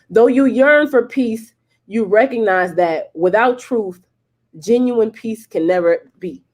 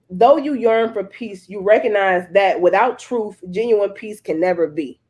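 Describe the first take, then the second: First: It is read at a slower pace. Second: It is read at a normal pace.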